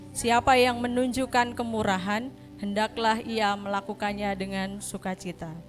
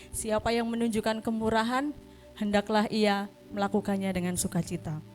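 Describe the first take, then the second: Both takes have the same delivery.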